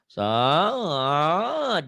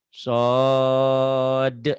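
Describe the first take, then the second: First: The pitch wavers up and down ornamentally. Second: The pitch stays level without ornament. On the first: The speaker calls it wrong. "Jangan naik turun dulu" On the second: The speaker calls it right. "nah gitu lurus kan?"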